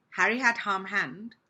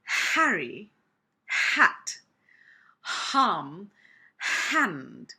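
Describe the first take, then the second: First: "Harry, hat, harm, hand" rushed, with no breath on the H; H said wrong. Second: "Harry, hat, harm, hand" with a strong puff of air on each H; breathy H demo. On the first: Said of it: "I've not used the letter H properly". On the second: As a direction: breathe hard into every H. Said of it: "So it's". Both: Shown as a demonstration.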